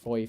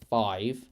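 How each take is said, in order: First: It is said with an Irish accent. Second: It is said with a British accent. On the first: "I say it like five sometimes" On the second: "instead of five"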